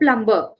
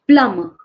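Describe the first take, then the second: First: The b sound is pronounced in the middle. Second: The b sound is silent in the middle. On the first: The speaker calls it wrong. "we are making a mistake here" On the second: The speaker calls it right. "The B is silent"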